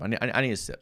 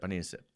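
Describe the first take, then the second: First: Said in the usual way. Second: Much softer, trailing off; soft repeat. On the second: Real, not acted. Calming himself after a rant, soft trailing repeat. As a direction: mumble it as you reach for a drink. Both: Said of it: "I'm getting worked up".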